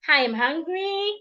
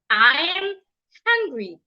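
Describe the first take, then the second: First: The pitch rises at the end. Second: The pitch falls at the end. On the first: The speaker calls it wrong. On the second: The speaker calls it right. "falling tone"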